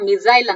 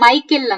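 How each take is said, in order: First: The word sounds like 'mi-sile'. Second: The word sounds like 'my-kel'. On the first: "ಮಿಸೈಲ್ ಅಂತ ಕೂಡ English ಅಲ್ಲಿ pronounce ಮಾಡ್ತಾರೆ" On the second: "ಮೈಕೆಲ್ ಅಂತ ಹೇಳ್ತಾರೆ"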